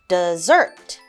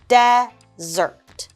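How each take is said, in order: First: The emphasis of the word goes upward. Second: The emphasis of the word goes downward. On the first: It names a sweet food after a meal. "our emphasis goes up" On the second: It names a dry sandy place. "our emphasis goes downwards"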